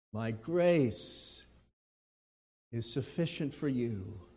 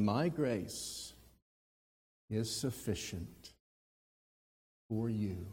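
First: "grace" leaned on, softer voice; stress on grace. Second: Each word weighed, soft; slow quoted verse. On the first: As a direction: lean on the word "grace". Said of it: "He starts with the word grace". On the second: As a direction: lay it down word by word. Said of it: "each one having its own emphasis". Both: Shown as a demonstration.

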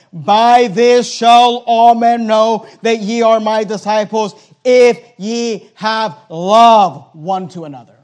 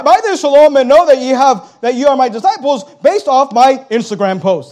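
First: Slow, deliberate reading of the verse; solemn scripture reading. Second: Quick, louder mock version of the verse; mocking misquote. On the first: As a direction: give each word of the verse weight, slowly. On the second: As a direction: toss the verse off as a careless misquote. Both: Shown as a demonstration. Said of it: "That's not what he said".

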